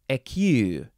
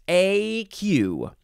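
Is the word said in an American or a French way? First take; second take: French; American. First: Said French-style, with neither syllable emphasized. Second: Said American-style, with an English-sounding vowel pattern. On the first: "seems like a French way to say it, and neither syllable is emphasized" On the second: "that's my American way to say it"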